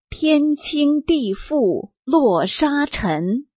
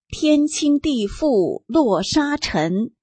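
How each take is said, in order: First: The line is read at a slower pace. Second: The line is read at a normal pace.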